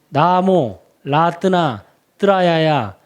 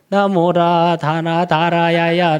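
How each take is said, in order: First: The first break comes right after 'namo'. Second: The first break comes after 'namora'. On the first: The speaker calls it right. "이렇게 읽어야 되는데" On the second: The speaker calls it wrong. "완전히 이상하게 끊어버린"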